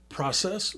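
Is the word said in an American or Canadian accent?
American. It is said in the speaker's usual American accent.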